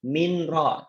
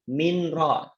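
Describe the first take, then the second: First: The n is pronounced clearly before the r. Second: The same.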